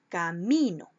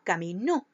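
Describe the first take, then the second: First: The stress is on the second-to-last syllable. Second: The stress is on the last syllable. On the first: "Se acentúa en la penúltima sílaba" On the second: "ahí pasaría a ser una palabra aguda"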